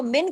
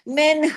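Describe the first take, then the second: First: "मिन" ending on the n with no breath after; "मिन" closed on a bare n; dropped final ha. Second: "मिन" finished with a breathed h from the throat; firm "मिन" with a puff of h after the n; throaty final ha. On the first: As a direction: clip off the h at the end of "मिन". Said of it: "हा को छोड़ देंगे". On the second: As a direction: let "मिन" end in an audible h, "minh". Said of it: "हा गले में होनी चाहिए". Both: Shown as a demonstration.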